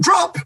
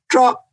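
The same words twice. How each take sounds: First: It sounds panicked and urgent. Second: It sounds relaxed and calm.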